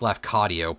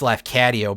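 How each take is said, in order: First: The name is said with the standard pronunciation. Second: The name is said with a Chicago-influenced pronunciation. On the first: The speaker calls it right. "it's pronounced Lafcadio" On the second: The speaker calls it wrong. "I always said it as Lafcadio, but I think that's because I'm from Chicago originally"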